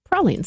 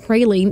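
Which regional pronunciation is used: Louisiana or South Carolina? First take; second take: Louisiana; South Carolina. First: It uses the French-influenced Louisiana pronunciation. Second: It uses the South Carolina pronunciation. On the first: "the Louisiana, the right, the more French influence, they pronounced them" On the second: "That's more like the South Carolina pronunciation"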